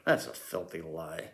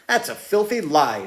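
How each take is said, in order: First: It is spoken in a low, hushed voice. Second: It is spoken in an ordinary speaking voice. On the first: The speaker calls it right. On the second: The speaker calls it wrong.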